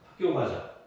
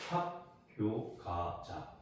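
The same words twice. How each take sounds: First: The sounds blend together smoothly and naturally. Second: Each sound is forced out separately with effort. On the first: The speaker calls it right. "이렇게 하는 게 자연스러운 발음이잖아요" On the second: The speaker calls it wrong. "이러면 우리가 발음하는 데 있어서 혀가 굉장히 힘들어해요"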